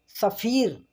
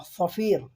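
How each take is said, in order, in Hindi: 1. पहली s ध्वनि सादी और हल्की है। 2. पहली s ध्वनि भारी और मोटी है। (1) "सफ़ीर नहीं बोलना है, सीन से नहीं बोलना" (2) "स्व है थोड़ा मोटा करके बोलना"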